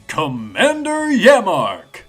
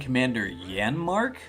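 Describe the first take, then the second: First: The name is said without an n sound. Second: The name is said with an n sound. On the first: The speaker calls it right. "two M's" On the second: The speaker calls it wrong. "with an N instead of two M's"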